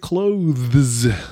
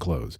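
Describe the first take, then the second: First: The th sound is clearly pronounced. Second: The th sound is dropped, like close. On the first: "I say clothes" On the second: "Most people say clothes and clothes"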